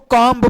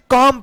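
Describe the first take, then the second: First: कॉम्ब with the b sounded at the end; the common wrong way, कॉम्ब with a voiced b; wrong "comb" with b. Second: कॉम said "kom", no b at the end; teacher's correct कॉम, b left silent; silent b in comb. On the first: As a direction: say कॉम्ब as "komb", b pronounced. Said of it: "तो इसको कॉम्ब नहीं". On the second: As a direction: drop the b: कॉम rhymes with "from". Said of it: "कॉम्ब नहीं, कॉम पढ़ते हैं". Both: Shown as a demonstration.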